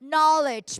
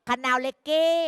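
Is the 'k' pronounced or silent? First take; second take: silent; pronounced. First: The k is silent and it has two syllables. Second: The k is pronounced and the e is sounded. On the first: The speaker calls it right. "พูดตามลูก" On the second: The speaker calls it wrong. "บางคนอ่านอะไรลูก"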